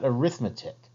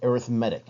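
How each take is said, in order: First: The stress is on the second syllable. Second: The stress is on the third syllable. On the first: It names the subject of calculation. The speaker calls it wrong. "not arithmetic" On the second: It names a type of sequence. The speaker calls it right. "Notice I said arithmetic"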